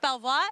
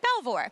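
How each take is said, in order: First: The name is said the French way. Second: The name is said the American way.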